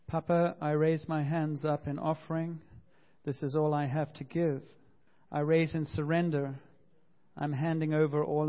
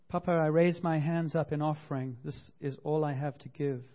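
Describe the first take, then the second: First: Congregational prayer reading. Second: Prayer reading. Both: Shown as a demonstration. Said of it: "Maybe you'd like to read this with me".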